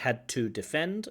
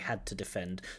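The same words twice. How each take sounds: First: The words are said separately, not linked. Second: The words are linked smoothly together. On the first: The speaker calls it wrong. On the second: The speaker calls it right.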